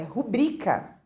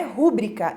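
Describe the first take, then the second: First: Rubrica stressed on BRI, ru-BRI-ca; correct penultimate stress. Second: Rúbrica stressed on RU, RÚ-bri-ca; rúbrica with BRI left unstressed; wrong first-syllable stress. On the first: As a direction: put the beat on BRI in "rubrica". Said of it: "é rubrica". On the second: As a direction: put the beat on RU in "rúbrica". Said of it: "não é rúbrica". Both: Shown as a demonstration.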